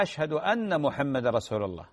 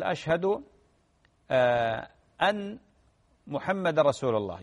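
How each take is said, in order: First: أن محمد run together as أمّحمد, nun merged into a doubled mim; correct pronunciation. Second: أن held with a hard stopped nun, then a pause before محمد; wrong pronunciation. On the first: Sheikh showing the correct adhan reading, merged nun. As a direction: flow أن into محمد without a break. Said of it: "هذا هو النطق الصحيح". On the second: Sheikh imitating muezzins' wrong reading, stopped nun. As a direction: break after أن, closing the nun dead. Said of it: "بعضهم يقول". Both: Shown as a demonstration.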